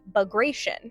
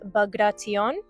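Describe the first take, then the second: First: The name is read with plain American English sounds. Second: The name is read with a less American pronunciation. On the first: The speaker calls it wrong. "Phonetically, you know, American English, we would say" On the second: The speaker calls it right. "I also saw some sources say it was"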